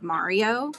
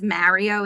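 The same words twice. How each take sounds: First: The name is said the non-New York way. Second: The name is said the New York way. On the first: This is how the speaker says it. "instead of" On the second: This is how her husband says it. "he says"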